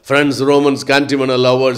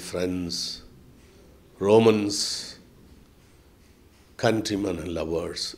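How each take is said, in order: First: The line is spoken very fast. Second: The line is spoken slowly with pauses. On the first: This is a personal style that breaks with the old method. "அவ்வளோ வேகமாக பேசுவார்" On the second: This is the traditional stage delivery without a microphone. "அப்படி தான் மெதுவாக பேசணும்"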